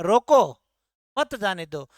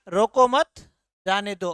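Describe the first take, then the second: First: Loud "रोको", stop, then lower "मत जाने दो"; pause after रोको. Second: "रोको मत" loud and joined, pause, "जाने दो" falls; pause after मत. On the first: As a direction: break between रोको and मत. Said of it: "और यहां क्या है". (रोको के बाद रुककर मत जाने दो) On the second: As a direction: stop between मत and जाने दो. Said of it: "मैं ठहराव ले रहा हूं". (रोको मत, फिर रुककर जाने दो) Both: Shown as a demonstration.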